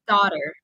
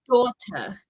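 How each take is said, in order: First: The t sounds like a soft d. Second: The t is pronounced as a crisp t. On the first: "I would say daughter. ... it sounds all like a heavy D in English pronunciation" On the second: "Teacher Chris would probably say ... British pronunciation, they pronounce a very clear T"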